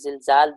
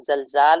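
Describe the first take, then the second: First: The first vowel is a close 'i' sound. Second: The first vowel is an open 'a' sound. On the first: "वल कसर" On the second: "बिलफ़त्हि"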